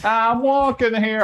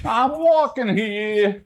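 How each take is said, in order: First: Higher, slow New York "I'm walking here"; New York accent. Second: Higher, slow New York "I'm walking here" with drawn-out "walking"; New York accent. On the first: Streamer practicing his New York accent line. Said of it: "trying to learn a decent New York accent". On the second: Streamer showing the classic New York accent phrase. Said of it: "how do I get this to sound exactly like the". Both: Shown as a demonstration.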